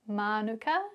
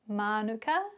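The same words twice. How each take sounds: First: It is said with Māori sounds and vowels. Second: The same.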